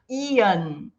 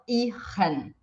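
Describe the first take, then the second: First: The ending sounds like 'ian' with no R. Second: The ending has a clearly sounded R. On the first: The speaker calls it right. "esse som de tipo ian" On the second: The speaker calls it wrong. "e não ihren"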